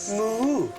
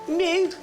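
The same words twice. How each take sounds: First: It is said in a Welsh accent. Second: It is said in a Liverpool accent. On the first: "It's Wales. / Yes" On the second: "Liverpool. / Yeah"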